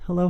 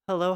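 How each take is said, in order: First: The low frequencies are turned fully up, sounding boomier. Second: The low frequencies are turned down, sounding thinner. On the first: "Turn it all the way up" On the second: "I'm gonna turn the low down a little bit"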